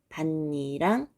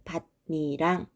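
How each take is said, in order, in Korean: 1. n 소리를 겹쳐서 발음합니다. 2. n 소리를 겹쳐서 발음합니다.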